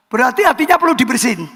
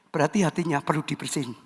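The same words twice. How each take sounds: First: Fast, fuller voice, pressing the point; emphatic repeat. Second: Low and soft, half to himself; soft aside. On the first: Preacher repeats the line to the congregation, emphatic. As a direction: say it again so they answer. Repeats after getting no response. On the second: Preacher first says it softly to the congregation. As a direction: drop it quietly, almost muttered. No reply, repeats after Halo. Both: Real, not acted.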